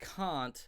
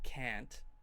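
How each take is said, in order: First: It is said with a British accent. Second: It is said with an American accent. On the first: "you might actually want to pronounce it like that" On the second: "the American way would be can't"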